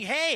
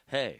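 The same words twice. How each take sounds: First: It is said in a high pitch. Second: It is said in a low, deep pitch. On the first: "Or I could be up here" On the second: "I could be right down here saying"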